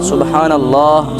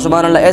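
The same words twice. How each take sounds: First: The phrase is said slowly and calmly. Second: The phrase is said quickly and hurriedly. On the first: The remembrance is done with care and attention. The speaker calls it right. "ऐसे नहीं करते ... आराम से नहीं करते" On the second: The remembrance is rushed just to finish a count. The speaker calls it wrong. "ऐसे जल्द जल्दबाजी में"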